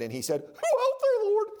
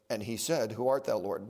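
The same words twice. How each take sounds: First: It is said at a very high, terrified pitch. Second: It is said at a normal, calm pitch.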